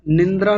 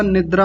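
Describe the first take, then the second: First: निंद्रा as nin-dra; added nasal. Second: निद्रा as nid-draa; no nasal. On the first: Teacher rejecting a common error, निंद्रा nasalised. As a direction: slip an n before the d in निंद्रा. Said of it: "निंद्रा नहीं होता". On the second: Teacher giving the correction, निद्रा without nasal. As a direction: go straight to the d in निद्रा. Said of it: "निद्रा होता है". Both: Shown as a demonstration.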